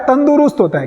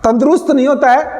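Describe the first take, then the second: First: तंदुरुस्त said the right way, with a firm falling tune; teacher confirming the right तंदुरुस्त; correct form. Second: तंदुरुस्त said the wrong way, with a rising tune; teacher showing the wrong तंदुरुस्त; wrong form. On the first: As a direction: say तंदुरुस्त cleanly and settle it with a fall. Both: Shown as a demonstration.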